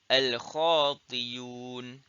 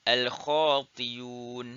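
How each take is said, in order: No difference in how they are said.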